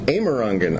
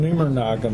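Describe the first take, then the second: First: The whole name is said clearly to the end. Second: The end of the name trails off, half dropped. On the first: This is how the name's owner says it. "You said that's how I say it" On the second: A relative gives up on the name halfway through. "He kind of gives up on it halfway through"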